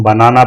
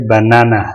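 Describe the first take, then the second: First: बनाना as ba-naa-naa, with equal long vowels; wrong pronunciation. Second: Said in the usual way. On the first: Shown as a demonstration. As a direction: say बनाना the mistaken local way, ba-naa-naa. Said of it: "ये गलत pronunciation है". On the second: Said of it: "इसे पढ़ेंगे".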